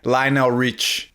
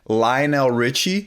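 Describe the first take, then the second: First: The final vowel is cut, ending on the consonant. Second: The name ends with its final ee vowel. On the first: The speaker calls it wrong. "she literally removes sounds" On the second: The speaker calls it right. "instead of saying [name]"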